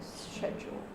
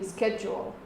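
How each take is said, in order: First: It is said with a British accent. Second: It is said with an American accent.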